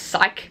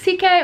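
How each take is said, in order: First: The name sounds like the word 'psych'. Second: The name sounds like the letters C and K. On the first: This is how it sounded when reading it. "when I read it, I read it like psych" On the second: This is how someone else said it. "I heard someone say it was C K"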